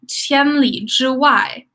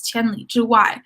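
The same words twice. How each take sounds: First: Slow demo. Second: Said in the usual way. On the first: Shown as a demonstration. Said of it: "teacher demonstrating new word". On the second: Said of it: "repeats word in normal flow".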